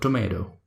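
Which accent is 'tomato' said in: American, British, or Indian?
American. It is said in an American accent. "In American accent is called tomato"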